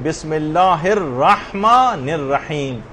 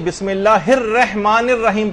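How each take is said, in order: First: The R of rahman takes an 'a' vowel. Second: The R of rahman takes an 'i' vowel. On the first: The speaker calls it right. "यानी रा के ऊपर जबर है, जेर नहीं है" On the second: The speaker calls it wrong. "इसमें भी वही गलती होती है, बिस्मिल्लाहिर रहमानिर रहीम पढ़ते हैं लोग"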